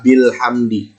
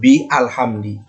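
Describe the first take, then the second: First: Bi runs straight into the article without a break. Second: A glottal stop separates bi and the article. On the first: The speaker calls it right. "maka dia dibaca bil hamdi" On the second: The speaker calls it wrong. "bukan bi alhamdi"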